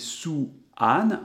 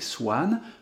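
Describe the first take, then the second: First: The name is said as two separate vowel syllables. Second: The name is said as a single syllable. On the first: The speaker calls it wrong. "on ne va pas prononcer sous Anne avec deux sons voyelles bien distincts" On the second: The speaker calls it right. "le W n'est pas ici une voyelle, c'est également une semi-consonne"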